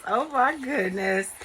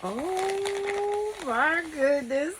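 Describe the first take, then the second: First: Choked up. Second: Long, high, drawn-out wonder; overwhelmed by the gift, slow and high; emotional gasp. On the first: Vlogger touched by a friend's gift, choked up. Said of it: "I'm getting choked up already". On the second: Unboxing a gift from a friend, overwhelmed delight. Opening happy mail gift. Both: Real, not acted.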